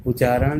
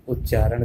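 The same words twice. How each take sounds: First: उच्चारण with one short च, u-chaaran; wrong pronunciation. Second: Said in the usual way. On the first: Shown as a demonstration. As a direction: skip the doubling of च in उच्चारण. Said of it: "नहीं कहना". (उच्चारण को उ-चारण बोलें) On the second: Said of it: "कहना है".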